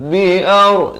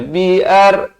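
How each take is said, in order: First: "Biar" chanted with a thick, rounded r; ra tebal. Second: "biar" with a thin, light r; wrong-example "biar", the r left light; ra nipis, salah. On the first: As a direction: say "Biar" with heavy r, almost "bi-aw". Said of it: "ra jadi tebal". (sebut "Biar" dengan ra tebal) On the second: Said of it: "jangan baca biar". (sebut "biar" dengan ra nipis) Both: Shown as a demonstration.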